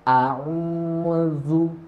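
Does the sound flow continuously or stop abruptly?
continuous. The voice and breath keep flowing smoothly. The speaker calls it right. "tetap suara dan nafas tetap mengalir"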